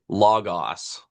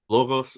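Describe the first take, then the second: First: It uses the Erasmian pronunciation of the word. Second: It uses the modern Greek pronunciation of the word. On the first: The speaker calls it wrong. "they're going to say logos. ... sounds really dumb" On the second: The speaker calls it right. "Logos, much more clear"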